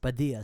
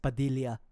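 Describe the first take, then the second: First: The double L is a plain y sound. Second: The double L is an l then y. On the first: "the last name Padilla in America is Padilla ... because it's like Spanish" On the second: "in the Philippines, it would be pronounced Padilla ... pronounce the first L and then turn it to a Y"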